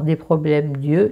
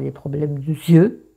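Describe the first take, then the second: First: The vowel of 'de' is dropped before 'yeux'. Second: The vowel of 'de' is pronounced before 'yeux'. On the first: The speaker calls it right. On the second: The speaker calls it wrong.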